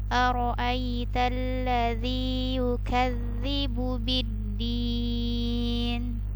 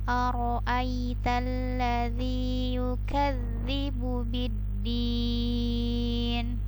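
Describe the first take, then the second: Both takes have the same delivery.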